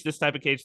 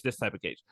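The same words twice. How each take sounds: First: Said in the usual way. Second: Trailing echo. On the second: Retold or imitated. Speaker repeating a talk, fading lower and softer.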